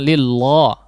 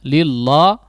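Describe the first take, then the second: Both takes have the same delivery.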